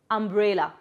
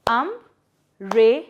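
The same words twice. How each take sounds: First: Said in the usual way. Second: "Um-re-la" in three slow beats with long pauses; syllable by syllable. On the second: Shown as a demonstration. Teacher breaking a word into three parts, "Um-re-la" syllable by syllable. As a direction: break "Um-re-la" apart, each piece standing alone. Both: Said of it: "break it into three parts".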